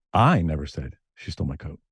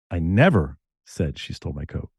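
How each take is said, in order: First: "I" hit first and hard, rest level; stress on I. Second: "never" jumps up and is held; stress on NEVER. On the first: Radio DJ shows how meaning shifts, stress on I. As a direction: lean on "I" as if someone else said it. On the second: Radio DJ shows how meaning shifts, stress on NEVER. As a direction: punch "never" like a denial. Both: Retold or imitated. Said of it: "how I said them".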